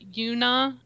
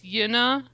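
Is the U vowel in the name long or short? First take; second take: long; short. First: The U vowel is long. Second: The U vowel is short. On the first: The speaker calls it wrong. "it's not Yuna" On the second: The speaker calls it right. "it's not a long U"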